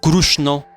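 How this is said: The name is said with an Oriya pronunciation. "in Orissa"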